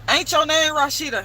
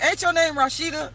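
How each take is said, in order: First: It is said in a rough, rude tone. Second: It is said in a nice, respectful tone.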